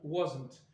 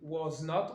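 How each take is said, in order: First: One merged word with the vowel of not dropped. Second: Two separate full words, was and not. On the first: "on va contracter was not en wasn't" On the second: "les formes pleines"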